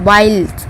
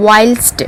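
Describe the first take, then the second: No difference in how they are said.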